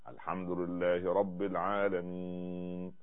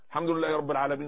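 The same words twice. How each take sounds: First: The words are recited slowly and calmly. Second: The words are recited quickly and hurriedly. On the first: The prayer is performed with humility and attention. The speaker calls it right. "هكذا" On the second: The prayer is rushed without attention. The speaker calls it wrong. "ينقرها نقر الغراب ... كده بسرعة"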